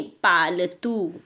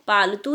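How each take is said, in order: First: "पालतू" slowly, paa-la-too, long final oo; corrected version. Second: "पालतू" run together quickly as paltu; wrong version. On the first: Teacher correcting pupils, "पालतू" slow with long oo. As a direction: draw out each syllable of "पालतू". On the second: Teacher showing the mistake, "पालतू" said short. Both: Shown as a demonstration. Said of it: "पालतू नहीं".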